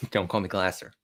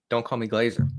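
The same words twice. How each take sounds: First: Glasser said as GLASS-er, short A, hissing S; Glasser pronunciation. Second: Glazer said as GLAY-zer, long A, buzzing Z; Glazer pronunciation. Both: Shown as a demonstration.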